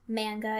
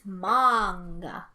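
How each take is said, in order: First: The first vowel sounds like the one in 'man'. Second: The first vowel is an open 'ah' sound. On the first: This is the usual American way of saying it. "It's in from an American dialect. Manga is right because that's how we would pronounce it" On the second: This follows the original Japanese way of saying it. "it is pronounced ma. It's an ah, ah sound. So it's manga"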